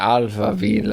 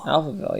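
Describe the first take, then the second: First: It is said in a German accent. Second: It is said in a plain English accent.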